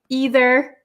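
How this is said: It is said the American way. "I am from America... And I say either"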